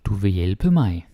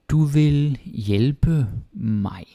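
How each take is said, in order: First: Said in the usual way. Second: Du vil hjælpe mig drawn out slowly and higher; very slow, higher model. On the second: Shown as a demonstration. Teacher slowly modelling a sentence, higher. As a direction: stretch every word for learners.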